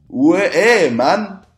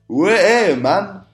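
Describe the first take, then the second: The two takes are said the same way.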